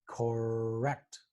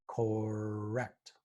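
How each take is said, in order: Both takes have the same delivery.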